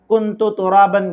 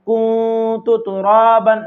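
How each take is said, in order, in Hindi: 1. n साफ़ बोला जाता है, नाक की गूंज के बिना। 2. n नाक की गूंज के साथ छिपा होता है। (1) "बगैर गुन्ना के पढ़ेगा इजहार के साथ, ये भी गलत है।" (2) "आपको पढ़ना है ... नाक में आवाज लेकर जाना है।"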